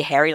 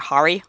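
First: Said in the usual way. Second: "Harry" with an open "ah" in the first syllable; Nova Scotian pronunciation. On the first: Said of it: "so they say Harry like". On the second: Shown as a demonstration. Host showing Nova Scotian accent, "Harry" said as HAH-ree. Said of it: "they do their A's like".

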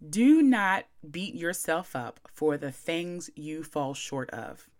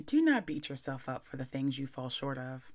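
First: Firm reminder to self, weight on "Do not"; emphatic repeat. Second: Said in the usual way. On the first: Real, not acted. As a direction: hit "Do not" hard, then space out the words to the end. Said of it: "I have to repeat that again because I'm actually talking to myself". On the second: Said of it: "I have to repeat that again".

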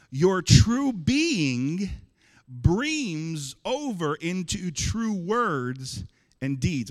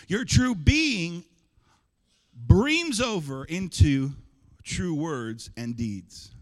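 First: Every word drawn out and weighted; slow emphatic reading. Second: Loud slow stress on "being" and "brims"; slow preached emphasis. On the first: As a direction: lean on "being" and "brims", slowly. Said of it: "I wanna say that again". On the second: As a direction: preach it word by word. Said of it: "somebody say being". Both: Shown as a demonstration.

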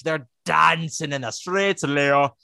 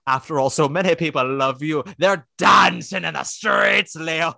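First: Slow mock Irish-Scottish lilt on the line; Irish Scottish accent. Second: Imitating the Southern singer. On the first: Podcaster admits their accent comes out Irish Scottish. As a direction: try for Southern, land in Irish Scottish. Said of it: "I can only make it Irish Scottish". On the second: Podcaster imitating the singer's angry Southern line. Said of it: "the way that [name] is like".

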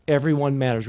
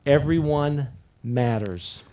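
First: Said in the usual way. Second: Slow, deliberate, each word weighed; slow emphatic line. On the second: Shown as a demonstration. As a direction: lay it down slowly so it sinks in. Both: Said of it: "Repeat after me".

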